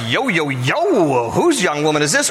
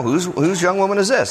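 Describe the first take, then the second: First: Lightly hammed-up interested flirt; catcalling flirt. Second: Casual, offhand question; matter of fact. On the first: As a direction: stretch it out like a mock catcall. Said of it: "is he just like". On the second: Acted. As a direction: ask it simply, like a decent guy. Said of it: "kinda matter of fact".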